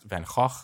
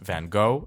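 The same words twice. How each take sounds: First: It is said the Dutch way. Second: It is said the common English way. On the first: The speaker calls it right. "it's pronounced Van Gogh" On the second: The speaker calls it wrong. "it's not pronounced Van Gogh"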